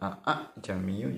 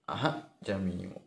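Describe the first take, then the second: First: The second syllable starts with a full glottal stop. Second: The second syllable starts with a faint, light breath. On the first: The speaker calls it wrong. "dibaca aa jamiu juga tidak benar" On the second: The speaker calls it right. "Jadi dibaca tipis sekali, tidak kentara antara huruf alif dengan huruf H"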